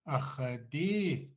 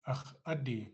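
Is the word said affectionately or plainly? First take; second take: affectionate; plain. First: It is said warmly, with strong emotional emphasis. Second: It is said plainly, without emotional emphasis. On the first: It expresses loving endearment, like 'my precious'. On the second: It claims possession, meaning 'that's mine'.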